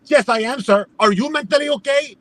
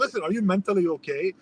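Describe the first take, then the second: First: Higher-pitched indignant comeback; worked-up mock retort; freaking out. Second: Softer, controlled retold challenge; subdued, pointed aside; lowered-voice question. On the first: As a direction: imitate a clerk firing the question back. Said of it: "she starts freaking out". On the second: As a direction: ask it quietly, checking on someone. His quieter question before her outburst.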